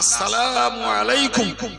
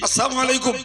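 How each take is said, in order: First: The 'la' sound in salamu is clearly pronounced. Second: The 'la' sound in salamu is dropped. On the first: It wishes the other person peace. The speaker calls it right. "এটা শুদ্ধ" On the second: It wishes the other person destruction. The speaker calls it wrong. "ওই লাম আলিফটা আর উচ্চারণ হলো না"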